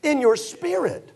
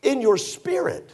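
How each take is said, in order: First: In your spirit, even higher, slow and pressed; emphatic repeat. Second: In your spirit, higher and slowed; emphatic. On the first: Preacher hammering the point to the congregation, emphatic repeat. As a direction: press the words home. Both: Shown as a demonstration. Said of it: "Now, I'm saying this".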